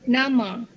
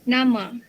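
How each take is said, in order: The two takes are said the same way.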